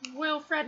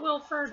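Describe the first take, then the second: First: The name ends with a 'fred' sound. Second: The name ends with a 'ford' sound. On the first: The speaker calls it right. "it's Wilfred" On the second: The speaker calls it wrong. "not Wilford"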